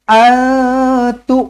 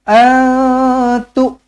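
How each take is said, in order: The two takes are said the same way.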